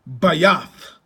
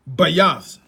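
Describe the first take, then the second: Both takes have the same delivery.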